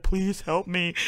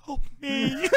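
First: Soft, understated fake-tearful plea; mock pleading. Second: Tiny high, soft mock cry for help; mock tearful plea. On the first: Imitating the fighter with fake tears, mock pleading. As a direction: quietly pretend to beg for rescue. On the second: Imitating the fighter's second fake-tears plea, mock tearful plea. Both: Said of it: "like, fake tears on his face".

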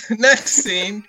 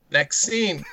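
First: Laughing through the words. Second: Said in the usual way. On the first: Shown as a demonstration. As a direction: giggle out the phrase. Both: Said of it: "I'll tell you about next scene".

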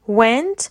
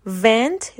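First: "went" with rounded-lip W; W sound. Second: "went" pronounced vent, with a V; V sound. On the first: Teacher repeating second word, "went" said with W. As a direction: round the lips into "went", rising at the end. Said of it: "W E N T". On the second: Teacher repeating first word, "went" said with V. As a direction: teeth touch the lip to start "went" as vent. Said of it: "وی ای ان تی بود". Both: Shown as a demonstration.

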